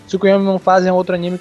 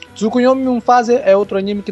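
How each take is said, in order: First: It is read at a fast pace. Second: It is read at a normal pace.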